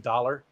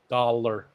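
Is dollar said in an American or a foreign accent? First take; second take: American; foreign. First: It is said in a plain American accent. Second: It is said in a strong foreign accent. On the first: "when I say dollar" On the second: "he always dollar"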